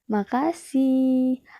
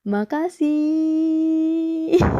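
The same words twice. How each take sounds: First: The final syllable is slightly lengthened. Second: The final syllable is drawn out extremely long. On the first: It sounds softer and sweeter. The speaker calls it right. "akhir kata dipanjangkan" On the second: The charming effect is lost. The speaker calls it wrong. "jika terlalu panjang juga dapat mengurangi efeknya"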